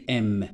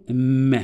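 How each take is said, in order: First: M spelt out as a letter, "em"; letter name. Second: M as a held hum with a short vowel, "mmm-e"; letter sound. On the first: Teacher showing pupils what not to say, M as letter name "em". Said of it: "ما نقولش هذه". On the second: Teacher showing pupils how to pronounce M, as its bare sound "mme". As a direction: sound out M, don't name it. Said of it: "Je vais la prononcer". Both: Shown as a demonstration.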